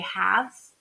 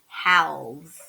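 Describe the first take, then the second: First: The L sound is silent. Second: The L sound is pronounced. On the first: The speaker calls it right. "when we say halves, we don't hear that silent letter there" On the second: The speaker calls it wrong. "we can think to ourselves, halves, right? And that's not how we say it"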